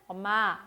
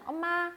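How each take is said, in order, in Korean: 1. 단어는 음을 낮춰서 말했어요. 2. 단어는 음을 높여서 말했어요. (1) "엄마 이렇게 내리든" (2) "소리를 높이든 엄마 하든"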